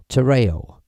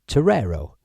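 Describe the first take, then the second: First: Terreo with no r sound in the second half; alternative pronunciation. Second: Terrero with a second r before the final o; alternative pronunciation. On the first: Streamer giving viewers his own version, Terreo said "tuh-RAY-oh". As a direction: say "Terreo", ending in a gliding "ay-oh". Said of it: "I produce it Terreo". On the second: Streamer reading the app's name, Terrero said with both r sounds. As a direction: say "Terrero" as "tuh-RAIR-oh". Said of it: "it seems to say, Terrero". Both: Shown as a demonstration.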